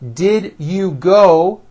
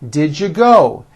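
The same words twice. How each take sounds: First: Each word is said separately and fully. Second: The words are squeezed together into one.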